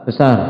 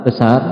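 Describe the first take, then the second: No difference in how they are said.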